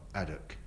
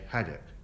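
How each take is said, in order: First: The word begins without any h sound. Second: The word begins with an audible h sound. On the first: The speaker calls it wrong. "not addock" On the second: The speaker calls it right. "I'm from South East London and I say haddock"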